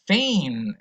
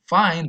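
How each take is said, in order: First: It is said with an Irish accent. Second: It is said with a standard accent. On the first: "in some varieties of Irish English" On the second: "instead of saying fine"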